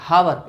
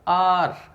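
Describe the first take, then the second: First: The word begins with an h sound. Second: The word begins with a vowel sound. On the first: The speaker calls it wrong. "मैंने बहुतों को देखा हावर कहते हुए" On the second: The speaker calls it right. "It is आर"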